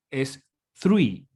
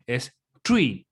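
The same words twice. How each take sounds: First: Three with the tongue between the teeth; three with a th sound; English th. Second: Tree with a plain t, no th; tree like the word for a tree. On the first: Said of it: "Si yo digo tres". (three con lengua entre dientes) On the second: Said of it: "Si digo árbol". (tree con T simple) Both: Shown as a demonstration.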